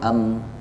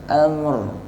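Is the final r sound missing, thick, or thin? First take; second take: missing; thick. First: The final r is left out entirely. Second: The final r is thick and heavy. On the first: The speaker calls it wrong. "bukan amr atau am, keliru" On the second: The speaker calls it right. "Ra-nya di bawah sedikit... bersifat isti'la tebal"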